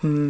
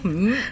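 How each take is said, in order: First: It sounds sarcastic. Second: It sounds joking.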